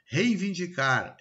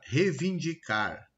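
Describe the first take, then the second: First: Said in the usual way. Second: "reivindicar" said slowly as "revindicar"; slow "reivindicar" with rei reduced to re; dropped-sound mispronunciation. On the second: Shown as a demonstration. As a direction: drop the first i of "reivindicar": "re-vindicar". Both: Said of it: "Eu começo a retirar".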